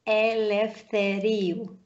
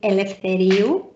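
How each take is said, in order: First: The name is said slowly. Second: The name is said at normal speed.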